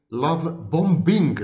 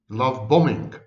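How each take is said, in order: First: BOMBING with the second b sounded, bom-BING; deliberate mispronunciation. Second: BOMBING with a silent second b, bomming; correct pronunciation. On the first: Professor quoting his own habitual mistake, hard-b BOMBING. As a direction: say BOMBING slowly as two parts, bom plus bing. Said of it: "not love bombing". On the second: Professor showing what he should say, silent-b BOMBING. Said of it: "The correct pronunciation is". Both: Shown as a demonstration.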